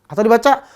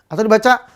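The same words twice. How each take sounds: The two takes are said the same way.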